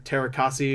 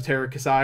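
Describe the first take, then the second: First: "Terakasi" ending in a "see" sound; "Terakasi", final vowel as in tree; alternate pronunciation. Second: "Terakasai" ending in a "sigh" sound; "Terakasai", final vowel as in sky; alternate pronunciation. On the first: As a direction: say "Terakasi" with the last syllable rhyming with key. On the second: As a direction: say "Terakasai" with the last syllable rhyming with eye. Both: Shown as a demonstration. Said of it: "however it's pronounced".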